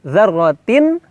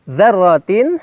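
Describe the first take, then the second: The two takes are said the same way.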